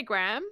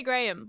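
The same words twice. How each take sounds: First: "Graham" as one syllable, rhyming with ham; American pronunciation. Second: Said in the usual way. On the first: Shown as a demonstration. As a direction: say "Graham" squashed into "gram". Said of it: "do you say Graham?". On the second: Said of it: "how do you say Graham?".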